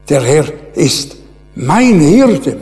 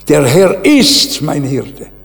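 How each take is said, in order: First: The word mein carries strong stress. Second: The word mein carries no special stress. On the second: "das kann ich verschieden betonen"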